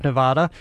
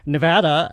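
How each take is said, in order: First: "Nevada" with a broad "ah", nə-VAH-da; wrong vowel. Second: "Nevada" with the vowel of cat, nə-VA-da; corrected vowel. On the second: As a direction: say "Nevada" rhyming with "had a". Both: Shown as a demonstration. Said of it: "I was corrected on that years ago".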